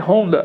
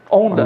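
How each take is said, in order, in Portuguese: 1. A palavra começa com som de H audível. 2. A palavra começa sem som de H. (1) "em japonês, em inglês, em português é Honda" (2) "no Brasil nós temos o H mudo ... leem Honda"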